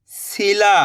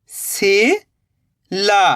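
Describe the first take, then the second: First: "सिला" joined in one go, no gap; blended word. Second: "सिला" slowly split, rising "si", long pause, "la"; split into syllables. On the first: Teacher giving learners the result, "सिला" blended. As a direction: say "सिला" whole, short i. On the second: Teacher building the word for learners, "सिला" in slow pieces. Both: Shown as a demonstration. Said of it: "तो मिलके बन जाएगा".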